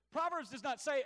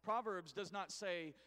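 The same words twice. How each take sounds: First: "Proverbs does not say" said higher and louder, "Proverbs" hit hardest; emphatic repeat. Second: Said in the usual way. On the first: Shown as a demonstration. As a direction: punch "Proverbs" up high and loud the second time.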